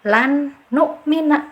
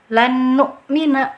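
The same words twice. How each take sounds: First: The first n is pronounced clearly and separately. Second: The double n is merged with no nasal hum. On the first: "yang keliru lagi... ijhar jelas" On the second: "Yang keliru... dengungannya tidak ada"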